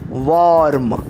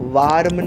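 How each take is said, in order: First: The vowel is a rounded 'aw' sound. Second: The vowel is an open 'ah' sound. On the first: The speaker calls it right. "इस शब्द का उच्चार होता है वॉर्म" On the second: The speaker calls it wrong. "इस शब्द का उच्चार वार्म नहीं होता"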